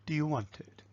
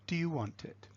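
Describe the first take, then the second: No difference in how they are said.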